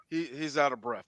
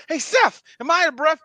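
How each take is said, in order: First: Low, quiet deadpan reply impression; Seth MacFarlane. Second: High-pitched appeal in actor impression; Mark Wahlberg. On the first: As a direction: drop low and soft to answer as the friend. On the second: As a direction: ask a pal, mock-indignant and pitched up. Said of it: "Mark, you're out of breath".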